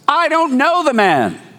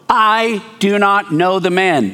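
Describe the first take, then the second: First: It is shouted loudly. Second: It is said calmly, without shouting.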